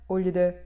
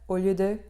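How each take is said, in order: Both takes have the same delivery.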